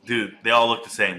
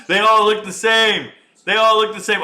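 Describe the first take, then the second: First: Said in the usual way. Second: Louder, higher, laughing disbelief; loud amused outburst; loud exclaim. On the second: Real, not acted. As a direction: shout it at the screen. Repeats line, then shouts it.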